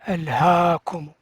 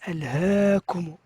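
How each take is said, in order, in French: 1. La voyelle longue est un 'a' ouvert simple. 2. La voyelle longue tend vers un son 'e'. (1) "on ne dit pas" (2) "imala, c'est-à-dire faire un son aigu"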